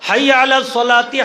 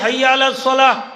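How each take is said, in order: First: The last word ends with an added ti syllable. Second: The last word ends on a bare h sound. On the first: The speaker calls it wrong. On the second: The speaker calls it right.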